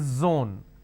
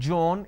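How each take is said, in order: First: The word begins with a z sound. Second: The word begins with a j sound. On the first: The speaker calls it right. "It's a z sound" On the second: The speaker calls it wrong. "they replace the z with a j"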